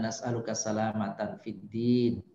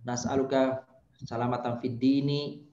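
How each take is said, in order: First: The last word ends on a bare consonant. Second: The last word ends with an added vowel. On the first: The speaker calls it right. "bagusnya kalau dibaca dia dimatikan ujungnya" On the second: The speaker calls it wrong. "itu kurang bagus itu cara bacanya"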